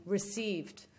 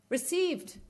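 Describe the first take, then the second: First: Said in the usual way. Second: "Received." mocked in disbelief, much higher pitch; incredulous repeat. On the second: Real, not acted. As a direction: echo "Received." with scornful disbelief, pitched high. Scornful echo of the reply.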